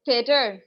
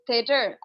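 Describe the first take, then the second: First: थिएटर said crisply with a falling end; teacher modelling थिएटर for students; modelled word. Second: थिएटर slowed right down to show the tha sound; patiently spelling out थिएटर by sound; slow demo. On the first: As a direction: demonstrate थिएटर with the th sound. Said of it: "मैं आपको अगर कहती हूँ". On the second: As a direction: draw out थिएटर so the th is heard. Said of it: "theater itself is a tha sound". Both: Shown as a demonstration.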